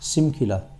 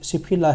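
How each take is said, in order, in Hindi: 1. बीच का व्यंजन 'm' जैसा सुनाई देता है। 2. बीच का व्यंजन 'p' जैसा सुनाई देता है। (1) "गलत प्रोनाउंस हो गया इसमें" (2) "सिपखिला है वैसे"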